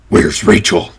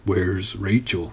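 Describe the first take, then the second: First: It is bellowed loudly in a deep, gruff voice. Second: It is said calmly, at normal volume. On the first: The question is demanded forcefully. "I did my Batman voice for them for the second one... bellowed Batman" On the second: The question is simply asked. "if the dialogue tag is simply asked, that's probably what it sounded like"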